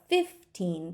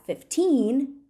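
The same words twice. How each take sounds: First: The stress is on the first syllable. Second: The stress is on the second syllable. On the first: "we have to shift the stress a little bit" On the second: "we stress the word fifteen on the second syllable"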